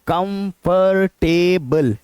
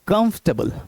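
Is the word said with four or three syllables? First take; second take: four; three. First: The word is said with four syllables. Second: The word is said with three syllables. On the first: The speaker calls it wrong. "चार बार आवाज निकालते हैं" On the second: The speaker calls it right. "इसमें तीन syllables हैं"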